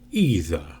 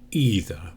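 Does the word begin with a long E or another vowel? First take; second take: long E; long E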